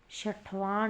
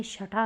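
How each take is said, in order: First: छठवां with the extra "vaan" ending; wrong form. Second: छठा short, ending in plain "aa"; corrected form. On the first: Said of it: "नहीं". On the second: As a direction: say छठा as "chha-tha". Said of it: "होगा". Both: Shown as a demonstration.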